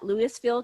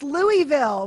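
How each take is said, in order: First: Louisville said as LOO-iss-vill with a clear s; wrong Louisville. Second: Louisville said as LOO-uh-vul, no s, slowed down; Louisville swallowed to LOO-vul, louder and slower; local pronunciation. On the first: Retold or imitated. Host reading the guest bio, saying Louisville with the s. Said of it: "It's Louisville". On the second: Shown as a demonstration. Guest correcting the host, Louisville without the s. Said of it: "they say Louisville".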